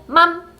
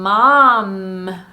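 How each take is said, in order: First: The starting M sound is short. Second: The starting M sound is held long. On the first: The speaker calls it wrong. "짧게 M을 유지시켜주지 않고" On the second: The speaker calls it right. "mom 할 때 지금 음, 음이 다 들어있어요"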